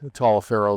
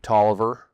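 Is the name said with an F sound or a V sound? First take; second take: F sound; V sound. First: The name is said as spelled, with an F. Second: The name is said short, with a V. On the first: The speaker calls it wrong. "they don't say Taliaferro" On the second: The speaker calls it right. "They say Tolliver is the correct way to pronounce it"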